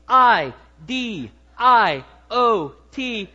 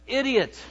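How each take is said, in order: First: Each letter slow and loud, spaced apart; spelled out letter by letter. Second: Said in the usual way. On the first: Shown as a demonstration. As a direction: spell it out slowly for the congregation. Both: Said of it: "Here are the five letters".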